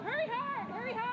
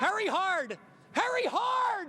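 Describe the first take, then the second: First: High urgent yell to sweep; curling skip yelling. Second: High loud sweeping shout; curling skip yelling. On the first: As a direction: shout at the sweepers. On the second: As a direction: yell it down the ice. Reporter echoes sweep call shouting. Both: Real, not acted.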